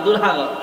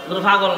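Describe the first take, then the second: First: The middle consonant is a plain 'h' sound. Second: The middle consonant is a breathy 'bh' sound. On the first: "এরা পয়েরে হ কয়" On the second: "দুর্ভাগল না"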